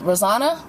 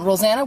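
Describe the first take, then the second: First: Rosanna with an open "ah"; Rosanna, middle syllable like "zah"; name pronunciation. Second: Rosanna with a flat A as in "Anna"; Rosanna, middle syllable like "zan"; name pronunciation. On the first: Corrects herself on the name. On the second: Unsure how name is said. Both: Shown as a demonstration.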